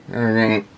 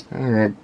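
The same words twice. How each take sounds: The two takes are said the same way.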